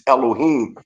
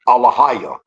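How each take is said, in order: First: The word begins with an 'e' sound. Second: The word begins with an 'a' sound. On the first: This is the modern form of the word. "In modern Hebrew, it uses Elohim" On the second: This is the ancient form of the word. "In ancient Hebrew, it will be Allahaya"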